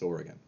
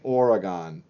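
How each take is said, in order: First: It is said with the local pronunciation. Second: It is said with an outsider's pronunciation. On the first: The speaker is from the state. The speaker calls it right. "It's Oregon" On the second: The speaker is not from the state. The speaker calls it wrong. "you're probably gonna say Oregon, but it that's not how we say it"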